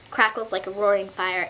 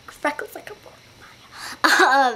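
First: Said in the usual way. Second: Slow, higher-pitched mock dramatic repeat; playful put-on voice. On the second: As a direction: draw it out in a silly higher voice. Repeats it playfully after laughing.

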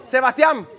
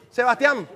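Both takes have the same delivery.

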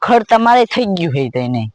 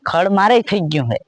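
First: તમારે pushed hard as a scoffing question; mocking stress on તમારે. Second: મારે hit firmly, falling; firm stress on મારે. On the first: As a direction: lean on તમારે, doubting him. Mocking repeat of the claim. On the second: Acted. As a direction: insist on મારે. Insisting it is his own.

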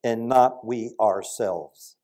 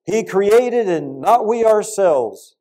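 First: Slow, with not held and falling; preacher leaning on not in the verse; stress on not. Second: Slow and higher, with not held long; preacher lifting the word not; stress on not. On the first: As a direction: lean slowly on not. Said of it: "It says". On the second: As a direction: hit not slowly and high. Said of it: "this is just an amazing point". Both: Shown as a demonstration.

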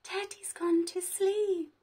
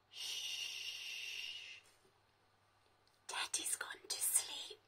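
First: Said in the usual way. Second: Soft unvoiced whisper so teddy sleeps. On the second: Shown as a demonstration. Teacher whispering to children so teddy can sleep. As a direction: hush it, barely a breath. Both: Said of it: "That's why I'm whispering".

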